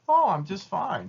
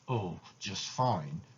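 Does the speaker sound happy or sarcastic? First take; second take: happy; sarcastic. First: It sounds happy and friendly. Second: It sounds angry and sarcastic.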